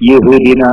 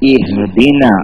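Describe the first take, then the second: First: The word begins with a 'ya' sound. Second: The word begins with a short 'i' vowel. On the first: The speaker calls it wrong. "യഹ്ദിന എന്നൊന്നും ഓതാൻ പാടില്ല" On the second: The speaker calls it right. "ഇഹ്ദിന അങ്ങനെ ഉച്ചരിക്കണം"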